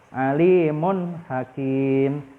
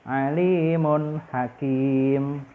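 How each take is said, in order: Both takes have the same delivery.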